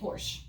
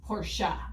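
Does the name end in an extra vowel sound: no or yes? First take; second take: no; yes. First: It is said without a final vowel sound. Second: It is said with a final vowel sound. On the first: This is the speaker's habitual way of saying it. The speaker calls it wrong. "I say Porsche" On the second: This is how it is properly said. The speaker calls it right. "The correct pronunciation of Porsche is Porsche"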